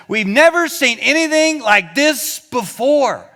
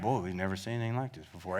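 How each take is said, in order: First: Slow, loud and high, full of wonder; amazed. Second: Mumbled fast and low, no spunk at all; flat, unimpressed. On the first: Preacher voicing the amazed crowd's exclamation. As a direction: proclaim it like a marvel. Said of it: "There's another version that says". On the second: Preacher showing how the crowd did not say it. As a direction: throw it away as if bored. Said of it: "It's not that at all". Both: Shown as a demonstration.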